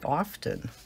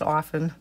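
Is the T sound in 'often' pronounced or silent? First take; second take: pronounced; silent. First: The T sound in the middle is pronounced. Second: The T sound in the middle is silent. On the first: "I would always say often" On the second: "I don't say often anymore. It's often"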